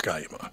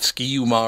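First: The first syllable sounds like 'sky'. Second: The first syllable sounds like 'ski'. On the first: The speaker calls it right. "It is Sky you ma" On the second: The speaker calls it wrong. "is it Ski you ma or Sky?"

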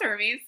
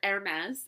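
First: It is said the usual way for the god. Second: It is said like the name of the fashion brand. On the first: The speaker calls it right. "I'm pretty sure it's pronounced Hermes" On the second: The speaker calls it wrong. "as I like to say, because I like fashion"

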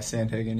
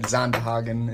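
First: The name is pronounced the English way. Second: The name is pronounced the Dutch way.

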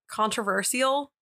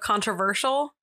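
First: The 'ti' is said as 'see', without 'sh'. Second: The 'ti' is said with a 'sh' sound. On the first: "I said controversial" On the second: "instead of controversial"

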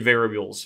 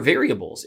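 First: The syllables run together, sounding clipped. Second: Every syllable of the word is said clearly. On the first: The speaker calls it wrong. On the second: The speaker calls it right.

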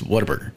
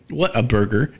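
First: The name is run together as one word. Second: The three words are said separately.

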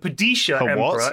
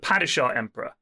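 First: The title is said the newer film's way. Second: The title is said the older film's way. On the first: This is how the new film says it. "now in this movie" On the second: This is how the earlier film said it. "instead of"

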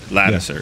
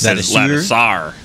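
First: The name ends with a weak 'ser' sound. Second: The name ends with a full 'sar' sound. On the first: This is how people commonly say the name. "That's how we say it" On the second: This is how the official guide gives the name. "in the pronunciation guide, it says Lattisar"

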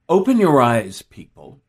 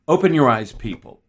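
First: The line sounds engaged and meant in the moment. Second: The line sounds mechanically recited, copying a past reading. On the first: The speaker is genuinely addressing the people. The speaker calls it right. "let's say I liked" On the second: The speaker is repeating a earlier reading, not meaning it. The speaker calls it wrong. "what I don't do is recite it as if, oh, I liked it the last time. I'll just use that"

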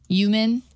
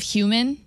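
First: The word starts without an H sound. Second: The word starts with a clear H sound. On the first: The speaker calls it wrong. "they don't pronounce the H" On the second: The speaker calls it right. "instead of human"

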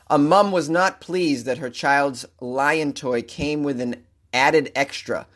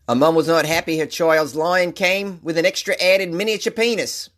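First: It is said in the speaker's own accent. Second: It is said in a put-on Australian accent.

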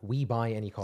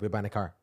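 First: It is said slowly, with each word separate. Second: It is said quickly, run together like one word. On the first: "if you slow down" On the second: "You almost said it as if it's one word"

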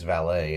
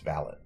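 First: It is said the American way. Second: It is said the British way.

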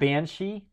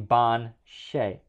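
First: The word is said in its usual English form. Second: The word is said as two parts, ending 'shay'. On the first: "two completely fucking different pronunciations" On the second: "banshee is actually ban shay"

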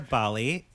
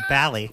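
First: The first vowel is an open 'ah' sound. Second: The first vowel sounds like the 'a' in 'ally'.

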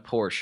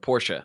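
First: It is said the common American way. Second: It is said the German way. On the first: The speaker calls it wrong. "I always say Porsche, and I know that's not right" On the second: The speaker calls it right. "that's a German pronunciation"

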